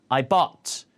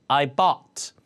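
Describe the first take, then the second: Both takes have the same delivery.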